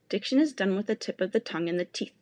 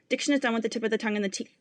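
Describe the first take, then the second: First: The sentence is spoken at a slow pace. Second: The sentence is spoken at a fast pace. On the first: "Both times will begin slow" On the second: "and grow faster"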